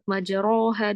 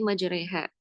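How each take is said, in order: First: The vowel after r is a full a. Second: The vowel after r is tilted toward e. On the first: The speaker calls it wrong. "ro fathah, berarti majaroha dong. Enggak" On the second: The speaker calls it right. "bacaan miring ya, bacanya e"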